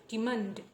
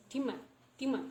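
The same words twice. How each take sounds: First: Said in the usual way. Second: "demand" with the final D dropped; only N at the end. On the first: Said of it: "not demand". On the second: Shown as a demonstration. Teacher correcting the full form, "demand" said with no final D. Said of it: "only N sound".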